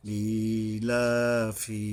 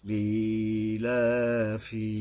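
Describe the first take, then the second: First: ইলাফি repeated slowly with the long vowel held; steady slow ইলাফি with held vowel; drawn vowel again. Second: ইলাফি with the ই of লি pulled out one alif long; slow recited ইলাফি, long first vowel; drawn vowel. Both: Shown as a demonstration. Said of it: "এই ইয়ার উপরে এক আলিফ টানতে হবে".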